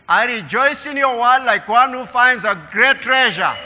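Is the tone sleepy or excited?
excited. It is read in a lively, excited tone.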